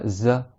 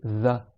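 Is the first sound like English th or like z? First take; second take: z; th. First: The first sound is a buzzing z. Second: The first sound is a soft th sound. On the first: The speaker calls it wrong. "C'est pas" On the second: The speaker calls it right. "c'est za, tu mets le bout de la langue sous les dents du haut"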